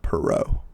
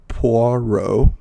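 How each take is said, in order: First: The first syllable sounds like 'puh'. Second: The first syllable sounds like 'pwah'. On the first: The speaker calls it wrong. "not Perot" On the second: The speaker calls it right. "so it's Poirot"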